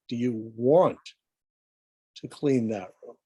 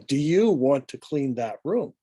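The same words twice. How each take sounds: First: The word want carries the stress. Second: The word you carries the stress. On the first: It asks whether the cleaning is really desired. "the emphasis is on the word want" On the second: It asks whether you or someone else will clean. "As we emphasize the word you"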